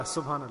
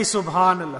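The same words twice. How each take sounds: First: Subhanallah dropped low and soft, trailing off; hushed repeat of Subhanallah; softer fading echo. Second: Said in the usual way. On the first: Shown as a demonstration. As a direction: let the second Subhanallah sink away quietly.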